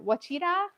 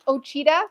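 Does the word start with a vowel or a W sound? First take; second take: W sound; vowel. First: The word begins with a W sound. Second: The word begins with a plain vowel sound. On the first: The speaker calls it right. "I think it's a, a W sound" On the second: The speaker calls it wrong. "I thought it was Ochita"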